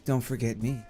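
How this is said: It is said in a sultry, seductive voice.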